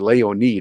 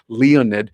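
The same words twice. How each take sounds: First: The name is pronounced the Russian way. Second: The name is pronounced the American English way. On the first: "is the way they say it in Russia" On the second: "That's the way we would pronounce it in America"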